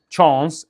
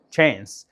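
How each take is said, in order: First: British "تشانس" with a broad, open "ah"; British pronunciation. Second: American "تشانس" with a thin, fronted "eh-a" vowel; light American vowel in "تشانس"; American pronunciation. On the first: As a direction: say "تشانس" the British way, dark "chahns". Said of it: "البريتش يقول تشانس". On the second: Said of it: "الامريكان يقول تشانس". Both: Shown as a demonstration.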